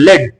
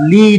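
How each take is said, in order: First: The word has a short vowel sound. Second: The word has a long vowel sound. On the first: It is the name of a metal. "इसको फिर हम लेड pronounce करते हैं" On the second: It is the verb meaning to guide. "लॉन्ग vowel के साथ"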